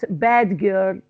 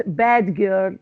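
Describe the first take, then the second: First: The d sound is kept before the g. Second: The d sound is kept before the g.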